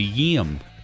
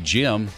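First: The name begins with a Y sound. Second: The name begins with a J sound. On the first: "They say Yim" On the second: "they don't say Jim"

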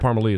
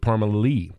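First: The middle of the name is short and clipped. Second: The middle sounds almost like an extra syllable. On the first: The speaker calls it wrong. "it's not Parmalee" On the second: The speaker calls it right. "Almost like a whole nother syllable"

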